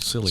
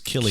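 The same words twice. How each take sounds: First: The name begins with a soft S sound. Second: The name begins with a hard K sound. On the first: The speaker calls it wrong. "which we've always called Cillian" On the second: The speaker calls it right. "it's like Celtic"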